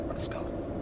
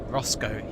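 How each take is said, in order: First: The name is said the standard, non-local way. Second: The name is said the local Breton way.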